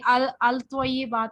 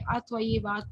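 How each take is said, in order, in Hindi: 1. आर्टिकल का L साफ़ बोला जाता है। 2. L साइलेंट है, अगला कंसोनेंट डबल हो जाता है। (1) "इसको हम नहीं पढ़ेंगे" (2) "अत्वय्यिबात पढ़ेंगे, लाम इसमें साइलेंट हो जाता है"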